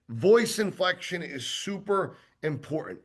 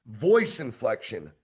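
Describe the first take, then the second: First: Said in the usual way. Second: "voice inflection" said slowly and low with weight on "voice"; weighty heading. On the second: Shown as a demonstration. Sales trainer announces his next point to trainees, slow and weighty.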